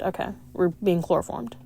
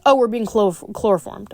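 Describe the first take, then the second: First: Much softer, dry repeat of "chloroformed"; quiet deadpan. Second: Said in the usual way. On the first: Real, not acted. Reader repeats the line to herself, softer and deadpan. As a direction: mutter it again, deadpan.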